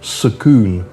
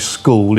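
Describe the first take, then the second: First: The word is said with a Thai-style pronunciation. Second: The word is said in standard English pronunciation. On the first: The speaker calls it wrong. "it's sakoon" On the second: The speaker calls it right. "Ask them to say school"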